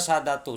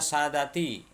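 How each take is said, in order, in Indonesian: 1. Kata ini berakhir dengan vokal 'u'. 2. Kata ini berakhir dengan vokal 'i'. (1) "dibaca sadatu" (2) "seharusnya sadati"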